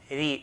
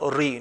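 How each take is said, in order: First: The r is light, with an empty mouth. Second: The r is heavy, with a full mouth. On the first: The speaker calls it right. "lightly, okay, empty mouth" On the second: The speaker calls it wrong. "and not ri"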